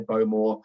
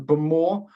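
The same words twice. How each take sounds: First: It uses the common industry pronunciation. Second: It uses the local islanders' pronunciation. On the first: It is how many outsiders say it. "lots of people in the industry say Bowmore" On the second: It is how island natives say it. "Bowmore is the correct pronunciation"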